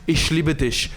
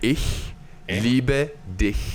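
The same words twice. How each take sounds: First: The words end in a 'sh' sound. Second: The words end in a throaty 'ch' sound. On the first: The speaker calls it wrong. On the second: The speaker calls it right.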